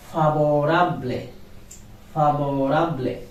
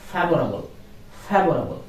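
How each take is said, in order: First: Favorable said the Spanish way, fa-bo-RA-ble. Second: Favorable said the English way, FAY-vor-uh-bul. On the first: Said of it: "But in Spanish". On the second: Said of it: "In English ... But in Spanish". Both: Shown as a demonstration.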